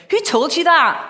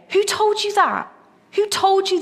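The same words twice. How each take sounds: First: Sharp, louder Glasgow challenge, pitched up; Glasgow accent. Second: Preaching challenge. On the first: Retold or imitated. Preacher imitating his Glasgow youth leader, blunt Glasgow accent. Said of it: "he was from Glasgow, he'd go". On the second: Real, not acted. Preacher asking his congregation directly, in his own voice, pitched high. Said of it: "that's what I'm saying to you today".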